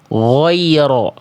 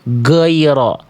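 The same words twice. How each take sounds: First: The first sound is made with pushed-out rounded lips. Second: The first sound is blocked, close to a g. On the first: "Mulutnya pakai muncung-muncung" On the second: "mampet ghainnya"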